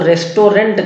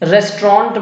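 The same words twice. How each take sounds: First: The word is said with a Hindi pronunciation. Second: The word is said with an English pronunciation. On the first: The speaker calls it wrong. "इसका उच्चारण बहुत गलत करते हैं लोग" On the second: The speaker calls it right. "रेस्टोरेंट बोलना है"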